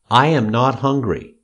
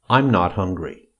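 First: I and am are said as two separate words. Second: I and am merge into one short syllable.

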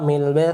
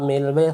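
The two takes are said the same way.

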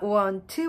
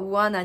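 First: Both words are said fully and separately. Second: The two words are blended into one reduced word.

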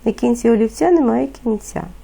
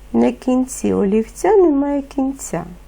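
First: The phrase is spoken at a very fast pace. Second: The phrase is spoken at a fast pace. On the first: "Ще швидше" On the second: "Тепер швидше"

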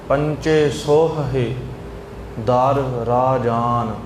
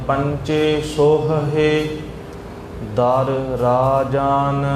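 Both takes have the same delivery.

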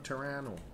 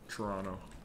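First: The name is pronounced the non-local way. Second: The name is pronounced the local way. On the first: The speaker calls it wrong. "That's not what they say" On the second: The speaker calls it right. "They say it like Toronto"

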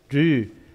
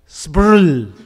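First: The word starts with a simple reduced onset. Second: The word starts with a full consonant cluster. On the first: This is how Tibetans usually say it. "the Tibetan saying Dru" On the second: This is how people west of Ladakh say it, following the spelling. "But their pronunciation is separately"

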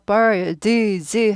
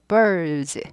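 First: The d sound is clearly released and popped. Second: The d sound is only shaped, barely released. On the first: The speaker calls it wrong. "birds 하지 않고" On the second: The speaker calls it right. "튀지 않는 발음이에요. 드는 입 모양만 해주고 지나갑니다"

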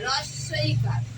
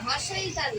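First: The word starts with an r sound. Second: The word starts with an h sound. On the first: The speaker calls it right. "রস্বইকার উচ্চারণটা কি? রস্বইকার" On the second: The speaker calls it wrong. "হস্রইকার নয়"

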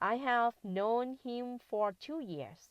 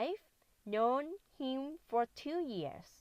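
First: 'I have' is said in full as two words. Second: 'I have' is contracted to one syllable, I've. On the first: "อ่านแบบนี้ก็ได้นะคะ" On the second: "ตรงนี้คุณครูอ่านว่า I've"

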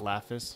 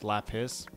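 First: The middle consonant is an f sound. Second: The middle consonant is a p sound. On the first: The speaker calls it wrong. "not Laphus" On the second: The speaker calls it right. "it's with A P, right? It's Laphus"

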